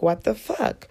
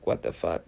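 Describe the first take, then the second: First: Tag retold disbelief. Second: Tag understated disbelief. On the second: Retold or imitated. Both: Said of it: "I didn't say that then".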